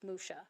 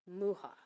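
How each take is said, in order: First: The name is pronounced the French way. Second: The name is pronounced the Czech way. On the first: "if you are from France, ... it's Musha" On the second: "the Czech pronunciation is Mucha"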